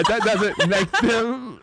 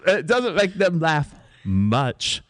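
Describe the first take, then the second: First: High, slow words broken by laughter; laughing mid-line. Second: Slow, recovered British retake; drawn-out stage British, composure regained; British accent. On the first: Actress fumbling her line, breaking into laughter. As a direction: crack up while acting British. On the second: Mother defending her play, slow British accent. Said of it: "my accent is superb". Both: Acted.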